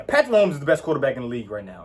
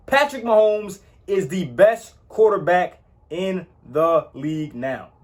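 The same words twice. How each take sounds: First: Fast, run-together statement; quick throwaway version of the claim; rushed claim. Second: Slowed, word-by-word statement; deliberate restatement, each word weighted; slow emphatic claim. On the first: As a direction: rattle it off quickly. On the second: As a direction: lean on every word, slowly. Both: Real, not acted. Restating his top claim.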